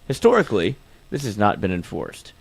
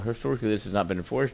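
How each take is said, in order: First: It is read more slowly. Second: It is read quickly. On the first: The speaker calls it right. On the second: The speaker calls it wrong.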